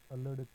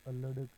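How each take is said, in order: Both takes have the same delivery.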